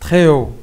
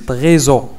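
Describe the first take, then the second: First: The two words stay apart with no z. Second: A z sound links the two words. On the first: The speaker calls it right. "pas de liaison" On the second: The speaker calls it wrong. "ما كنقولوش تريزو"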